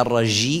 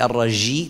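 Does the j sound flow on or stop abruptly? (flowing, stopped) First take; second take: flowing; flowing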